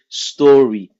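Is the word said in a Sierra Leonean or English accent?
English. It is said in a standard English accent.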